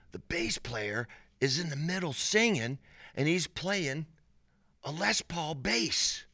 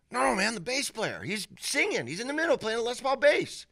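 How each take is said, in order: First: Imitating excited buddy. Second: Very high-pitched, pressing insistence; imitating insistent buddy. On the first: Buddy leaning over to report on the band, imitated excitement. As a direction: play the buddy passing on an amazing sight. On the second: Buddy correcting his doubting friend, imitated insistence. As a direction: play the buddy refusing to be doubted.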